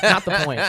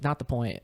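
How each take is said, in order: First: Louder, higher, laughing through it. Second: Said in the usual way. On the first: Retold or imitated. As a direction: repeat it cracking up.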